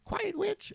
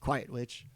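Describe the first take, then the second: First: It is said in a shrill female voice. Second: It is said in a male voice.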